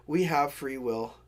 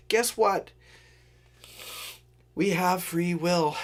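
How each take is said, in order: First: Said in the usual way. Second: Slow, weighty, mock-grand; dramatic pronouncement. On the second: Shown as a demonstration. Telling viewers the punchline slowly and mock-grandly. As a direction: let it land slowly like a big reveal. Punchline, then laughs and repeats.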